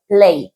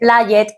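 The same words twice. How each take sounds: First: The ending is just a soft d sound. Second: The ending is said as an extra syllable. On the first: The speaker calls it right. "la pronunciación sería una D, porque sale así suave" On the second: The speaker calls it wrong. "esto no se lee played"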